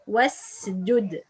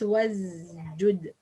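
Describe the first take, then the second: First: The s is voiceless, a clear s. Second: The s is voiced, sounding like z. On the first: The speaker calls it right. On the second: The speaker calls it wrong.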